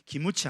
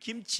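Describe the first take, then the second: First: It is said with a Japanese accent. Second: It is said with a Korean accent. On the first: "일본 사람 받침을 못하잖아요" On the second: "받침을 못하니까 우리는 둘 다 하잖아요"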